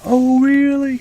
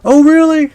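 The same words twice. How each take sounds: First: Imitating an old lady on the phone again; mock old auntie. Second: High, loud surprised elder lady; imitating an old lady on the phone; mock old auntie. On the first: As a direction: echo the auntie's surprise, lighter. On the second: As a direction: squeak it out like an old Indian auntie hearing news. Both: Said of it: "they're old Indian ladies".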